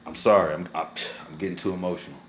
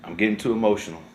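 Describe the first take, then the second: First: Much softer and lower, voice nearly gone; choked up. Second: Softer, lower, holding back tears; getting emotional. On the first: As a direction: barely get the words out, overwhelmed. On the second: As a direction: let the feeling catch you as you admit it. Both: Real, not acted.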